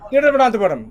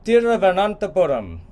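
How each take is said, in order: First: The word is said quickly and smoothly. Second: The word is said slowly, syllable by syllable. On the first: "Now in India they go" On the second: "I'll say it slowly"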